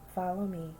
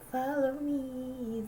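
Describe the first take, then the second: First: It is said in a firm, no-nonsense tone. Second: It is said in a light, playful tone. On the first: It is a confident lead that can be trusted. "look at me, follow me. I'm leading you now. I'm strong now" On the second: It is a teasing, lighthearted invitation. "like we're very playful from the Piper"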